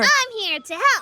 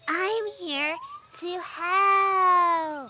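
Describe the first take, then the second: First: It is said loudly. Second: It is said quietly.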